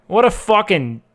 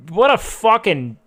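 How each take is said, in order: Both takes have the same delivery.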